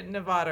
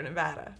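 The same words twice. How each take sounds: First: Nevada with open "ah", ne-VAH-da; first Nevada variant. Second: Nevada with short flat "a" as in cat; second Nevada variant. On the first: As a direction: stress an AH vowel in Nevada. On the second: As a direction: say Nevada as ne-VAD-a. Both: Shown as a demonstration. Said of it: "They say Nevada or Nevada".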